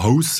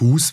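First: The vowel is a gliding diphthong. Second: The vowel is a single long u. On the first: This is the Swabian form. "weil man dort eben Haus sagt" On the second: This is the Alemannic form. "Hus wie im Alemannischen"

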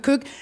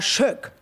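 First: The word begins with a hard k sound. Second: The word begins with a soft sh sound. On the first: To locals it sounds like a rude word for penis. "Im Plattdeutschen sagen wir Kök" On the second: To locals it means kitchen. "Die sagen aber Schöck"

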